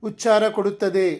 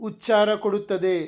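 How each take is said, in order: The two takes are said the same way.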